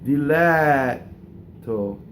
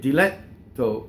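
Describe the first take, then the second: First: The vowel before the double T is long. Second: The vowel before the double T is short. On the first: The speaker calls it right. "the A vowel before the double T is not short" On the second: The speaker calls it wrong. "a lot of times you're told to shorten those"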